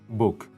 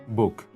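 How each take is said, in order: First: The vowel sounds close to oo. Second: The vowel sounds close to oo.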